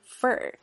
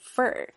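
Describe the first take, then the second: First: The word has a weak, reduced vowel. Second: The same.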